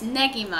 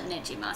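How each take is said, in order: First: The middle consonant is a hard g sound. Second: The middle consonant is a soft j sound. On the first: The speaker calls it right. "It's Negima, I think" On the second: The speaker calls it wrong. "but I used to call it Nejima"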